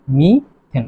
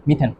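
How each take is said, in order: First: "মিথেন" drawn out as two parts, মি, then থেন; syllable-split pronunciation. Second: Said in the usual way. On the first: Shown as a demonstration. Teacher showing students how methane is pronounced, "মিথেন" split in two. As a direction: break "মিথেন" after মি, falling at the end. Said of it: "তাহলে উচ্চারণ কি হবে?". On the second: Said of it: "উচ্চারণ কি হবে?".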